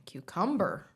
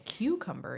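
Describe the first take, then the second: First: "cucumber" as kyoo-KUM-ber, drawn out; slow "cucumber" with the middle punched; stress on middle syllable. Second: "cucumber" as KYOO-kum-ber; stress on first syllable. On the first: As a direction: hit the KUM of "cucumber", slowly. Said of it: "you're saying cucumber". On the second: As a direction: hit the CU of "cucumber". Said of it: "instead of saying cucumber". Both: Shown as a demonstration.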